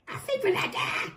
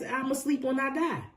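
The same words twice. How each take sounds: First: High, strained combative retort; hammed-up defiant comeback; mock combative. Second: Said in the usual way. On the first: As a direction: throw it back as a high-pitched outburst. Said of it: "That was the combative energy that I heard". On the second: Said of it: "That was the combative energy".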